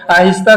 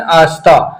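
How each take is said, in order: First: Said in the usual way. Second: آستہ said as aasta with no h; آستہ as aasta without h, Calcutta Urdu; Kolkata Urdu h-dropping. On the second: Shown as a demonstration. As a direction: drop the h in آستہ, Kolkata style. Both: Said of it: "آہستہ کو وہ بولتے ہیں آستہ".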